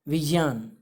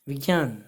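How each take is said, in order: No difference in how they are said.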